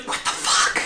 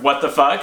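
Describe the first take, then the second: First: Shocked, hushed stage whisper. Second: Said in the usual way. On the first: Retold or imitated. Startled sleeper to an intruder in the bedroom, stage whisper. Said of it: "this sort of stage whisper".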